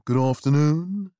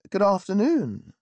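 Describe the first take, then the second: First: Intoned. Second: Bright, cheerful greeting, higher; cheerily. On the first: Butler greeting a visitor at the door, intoning. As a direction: intone it like an old-school butler. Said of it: "he intoned". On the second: Visitor greeting the butler cheerfully. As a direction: chirp it out with good cheer. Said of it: "I said cheerily". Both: A narrator's reading.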